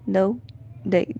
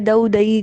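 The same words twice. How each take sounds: First: There is a short pause after each word. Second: Both words run together and one is drawn out. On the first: The speaker calls it right. "दऊ के बाद भी रुक जाए, दही के बाद भी रुक जाए" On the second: The speaker calls it wrong. "अगर दऊ दही करेंगे तो दही खिंच जाएगा"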